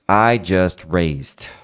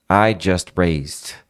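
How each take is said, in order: The two takes are said the same way.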